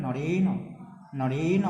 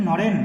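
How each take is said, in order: First: নরেন said as "norena", last vowel sounded; careful demo of নরেন with a vowel after the n; drawn final vowel. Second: নরেন closed on the n, no vowel after; louder demo of নরেন with silent final vowel; common mispronunciation. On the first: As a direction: open the final ন of নরেন into a held o. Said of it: "সেখানে অকে টানতে হবে". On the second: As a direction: end নরেন on a bare consonant. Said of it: "সবাই উচ্চারণ করে কি". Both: Shown as a demonstration.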